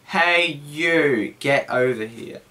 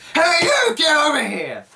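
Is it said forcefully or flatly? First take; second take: flatly; forcefully. First: It is said flatly, without emotion. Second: It is said forcefully and seriously.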